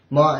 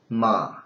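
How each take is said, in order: First: The syllable follows the first tone. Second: The syllable follows the third tone. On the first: It means mother. "ma is first" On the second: It means horse. "in the third intonation it sounds like ma"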